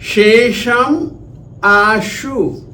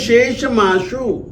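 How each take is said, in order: First: The two words are said separately. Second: The final m runs into the next word.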